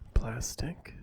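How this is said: The word is spoken in a soft, voiced tone. "in a normal soft-spoken voice like plastic"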